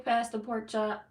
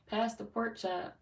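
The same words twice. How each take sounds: First: Drawn-out 'Pass the pork chop' in a playful Southern country twang; mock Southern country accent. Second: Said in the usual way. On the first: Reading a viewer's name back on a live stream in a playful Southern country accent. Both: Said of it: "Country girl, I hear that accent".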